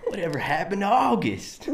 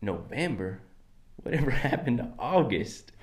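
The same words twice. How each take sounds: First: Put-on high, botched British-sounding accent. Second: Loose-mouthed accent with too much twang; relaxed-mouth accent. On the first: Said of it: "Just very stereotypical British accent". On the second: Shown as a demonstration. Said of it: "Just gotta relax the mouth".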